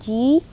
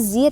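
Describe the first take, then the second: First: The consonant is a j sound. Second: The consonant is a buzzing z sound. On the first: The speaker calls it wrong. "jangan sampai ji" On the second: The speaker calls it right. "zi hati-hati"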